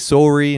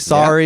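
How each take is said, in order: First: It is said with a Canadian accent. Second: It is said with an American accent. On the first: "we say sorry" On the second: "They say sorry"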